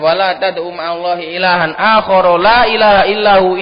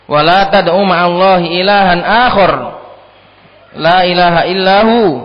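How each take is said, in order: First: It runs on without a pause after akhar. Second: There is a pause after akhar.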